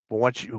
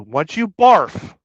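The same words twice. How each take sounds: First: Said in the usual way. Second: Once you barf, slow and louder; slow loud emphasis on barf; stressed punchline. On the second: Real, not acted. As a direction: lean hard on barf, drawn out. Stretches the punchline.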